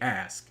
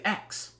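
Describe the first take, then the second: First: The word ends with a clear 'sk' sound. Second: The word ends with a 'ks' sound. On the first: "I make sure to enunciate ask"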